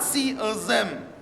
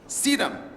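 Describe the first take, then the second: First: The words are separate, with a th sound. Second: The words are linked, with a d sound. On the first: The speaker calls it wrong. "not see as them" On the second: The speaker calls it right. "T H turns to D"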